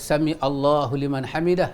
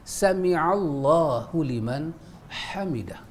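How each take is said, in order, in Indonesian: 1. 'Allahu' dimulai sebagai kata terpisah setelah 'sami'. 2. Bunyi ain langsung menyambung ke 'Allahu'. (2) "tapi dengan ain"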